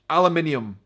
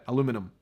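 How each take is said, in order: First: It is said with a British pronunciation. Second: It is said with an American pronunciation. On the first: "That's how we say it" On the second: "You guys say aluminum?"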